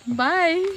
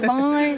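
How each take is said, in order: First: It is said boldly with style and confidence. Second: It is said dull and heavy, mocking.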